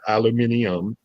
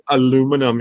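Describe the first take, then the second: First: It is said the British way, aluminium. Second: It is said the American way, aluminum. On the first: This is how the other person says it. The speaker calls it wrong. "not aluminium" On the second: This is how people say it locally. The speaker calls it right. "we pronounce it aluminum here"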